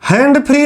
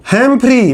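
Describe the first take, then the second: First: "हैंड फ्री" with nd, like English "hands-free"; mistaken pronunciation. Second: "हैम्फ्री" with m before f, no d; correct pronunciation. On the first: Teacher warning students off the mix-up, "हैंड फ्री" with nd. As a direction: say "हैंड फ्री" as two words with a d. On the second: Teacher correcting to the scholar's name, "हैम्फ्री" with m. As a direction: say "हैम्फ्री" as one name, m running into fri. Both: Shown as a demonstration. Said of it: "हैंड फ्री नहीं, बहुत use करते हो".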